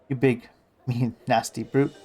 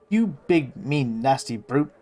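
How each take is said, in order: First: The stress falls on brute. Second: No special stress falls on brute.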